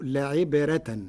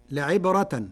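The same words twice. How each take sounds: First: لعبرة with a light, thin ر; thin Warsh ra. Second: Said in the usual way. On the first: Shown as a demonstration. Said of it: "فتصير". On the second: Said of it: "قرأ ورش كلمة لعبرة بترقيق الراء".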